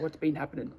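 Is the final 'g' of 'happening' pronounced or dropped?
dropped. The ending of 'happening' is cut short.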